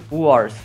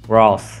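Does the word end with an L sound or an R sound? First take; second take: R sound; L sound. First: The word is said with an R sound. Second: The word is said with an L sound. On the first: The speaker calls it right. "Wars, exatamente" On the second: The speaker calls it wrong. "Vocês ficam me zoando por causa de eu não sei falar Walls"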